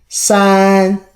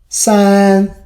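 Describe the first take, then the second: No difference in how they are said.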